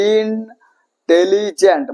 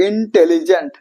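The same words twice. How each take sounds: First: ইন্টেলিজেন্ট slowly broken into separate syllables. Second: Said in the usual way. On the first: Shown as a demonstration. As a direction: stretch each syllable of ইন্টেলিজেন্ট. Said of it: "এটাকে ভেঙে ভেঙে পড়তে হচ্ছে". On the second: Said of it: "মানে এটাকে ভেঙে ভেঙে পড়তে হচ্ছে".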